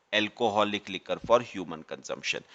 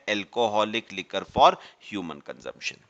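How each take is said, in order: Both takes have the same delivery.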